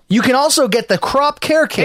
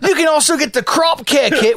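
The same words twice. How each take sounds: First: It is said in the speaker's normal accent. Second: It is said in an Australian accent.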